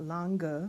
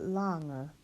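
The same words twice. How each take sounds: First: The n and g are sounded separately. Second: The n and g blend into one sound. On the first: The speaker calls it wrong. "not lange" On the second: The speaker calls it right. "but lange"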